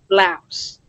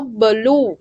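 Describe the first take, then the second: First: The word ends with a final s sound. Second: The word ends without a final s sound. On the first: This is the English way of saying it. The speaker calls it right. "actually is pronounced as áo, blouse" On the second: This is the local Vietnamese way of saying it. The speaker calls it wrong. "they call it áo blue"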